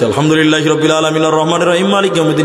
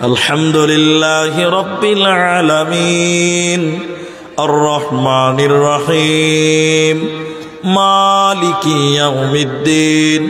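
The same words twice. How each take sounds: First: It is rattled off extremely fast and unclearly. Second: It is recited slowly in broken-up pieces. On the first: "কি বলেছে নিজেও জানে না" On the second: "কেটে কেটে কেটে কেটে আস্তে আস্তে বলছে"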